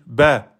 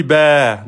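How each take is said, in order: First: "ba" cut to one beat; short vowel. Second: "ba" held long over two beats; drawn-out vowel. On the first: Teacher correcting to the one-beat "ba", short. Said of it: "je passe en un temps". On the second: Teacher showing what was not said, long "ba". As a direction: stretch the vowel of "ba". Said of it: "j'ai pas dit ba, non". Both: Shown as a demonstration.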